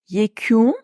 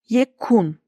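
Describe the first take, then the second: First: The k and u are soft, u slightly long. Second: The k and u are hard, u short. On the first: The speaker calls it right. "K'nin yumuşamasına, U'nun yumuşamasına, U'nun birazcık uzamasına dikkat edin" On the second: The speaker calls it wrong. "Türkçe'de yekun diye bir kelime yok"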